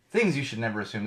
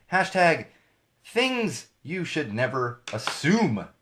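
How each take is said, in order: First: Said in the usual way. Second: Each word drawn out slowly; slow hashtag read. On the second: Shown as a demonstration. Host reading a hashtag to viewers, slow and deliberate. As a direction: savor every word, x0.5 slow.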